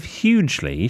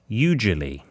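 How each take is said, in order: First: Said in the usual way. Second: Hugely said as "YOU-ju-lee"; hugely in three syllables, "yoo-juh-lee"; mam's posh mispronunciation. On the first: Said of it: "my mam mispronounces so many words". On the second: Retold or imitated. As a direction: drop the h and add a syllable: hugely as "you-julie". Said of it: "misguided effort to sound posh".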